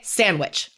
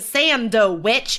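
First: The d sound in the middle is dropped. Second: The d sound in the middle is pronounced. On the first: "Like that D is gone into the ether" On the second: "instead of saying sandwich"

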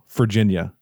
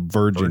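First: The word begins with an F sound. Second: The word begins with a V sound. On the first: The speaker calls it wrong. "I always pronounced it like it's an F" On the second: The speaker calls it right. "instead of Virginia"

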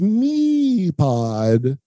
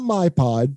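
First: The first syllable sounds like 'me'. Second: The first syllable sounds like 'my'. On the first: The speaker calls it right. "It's MePod" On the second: The speaker calls it wrong. "It's not my pod. Don't say that"

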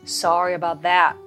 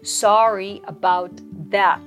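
First: The words are joined together smoothly. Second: Each word is pronounced clearly and separately. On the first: "少し続けていきます" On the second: "まずしっかり発音していきましょう"

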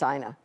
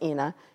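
First: The name is said the American way. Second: The name is said the European way. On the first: "here it's Ina" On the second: "in Europe, it's Ina"

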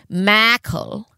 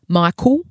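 First: The second syllable sounds like 'kel'. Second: The second syllable sounds like 'cool'. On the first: The speaker calls it right. "So I'll say it correctly" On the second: The speaker calls it wrong. "I say his name M-I-C-O-O-L"

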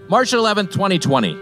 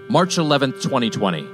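First: It is said in a casual, ordinary voice. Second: It is said in a grave, weighty voice.

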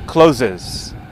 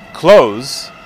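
First: The word is said as two syllables. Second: The word is said as one syllable. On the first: "about half of you said closes" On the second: "you sounded like I said it"

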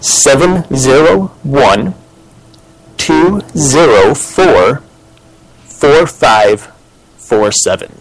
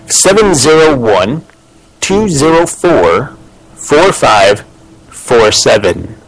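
First: The number is read more slowly. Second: The number is read at normal speed.

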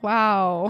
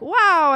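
First: It is said flatly, without excitement. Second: It is said with excitement.

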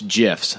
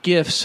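First: The word begins with a soft G sound. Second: The word begins with a hard G sound. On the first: The speaker calls it right. "It's GIFs, soft G" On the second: The speaker calls it wrong. "not GIFs"

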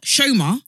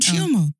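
First: The name begins with a sh sound. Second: The name begins with a ch sound. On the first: This is how others mispronounce her name. The speaker calls it wrong. "Not Shoma" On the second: This is how she says her own name. The speaker calls it right. "she introduces, I'm Chioma"

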